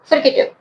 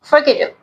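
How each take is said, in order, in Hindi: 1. पहला अक्षर छोटे i के साथ 'fri' की तरह सुनाई देता है। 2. पहला अक्षर छोटे i के साथ 'fri' की तरह सुनाई देता है।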